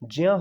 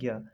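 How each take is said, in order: First: The syllable begins with a 'j' sound. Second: The syllable begins with a 'g' sound. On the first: The speaker calls it right. "इसका शुद्ध उच्चारण ज्या होता है" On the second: The speaker calls it wrong. "ना कि ज्ञा"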